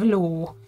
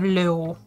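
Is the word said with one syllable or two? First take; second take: one; two. First: The L goes straight into the vowel. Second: An extra vowel sound is added with the L. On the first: This is the real word for horse. The speaker calls it right. "We only have Ló" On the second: This is how a child misread the word. The speaker calls it wrong. "We don't have Ló"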